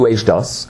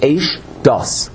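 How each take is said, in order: First: The two words are run together as one. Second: The two words are clearly separated. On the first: The speaker calls it wrong. "You don't read it as one word" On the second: The speaker calls it right. "You have to separate the word completely"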